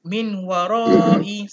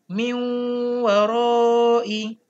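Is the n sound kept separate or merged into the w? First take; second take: kept; merged. First: The n is kept separate before the w. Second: The n merges into a nasalized w. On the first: The speaker calls it wrong. "Kamu jangan baca min warai, salah" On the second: The speaker calls it right. "terus masuk huruf waw, tapi kena dengung"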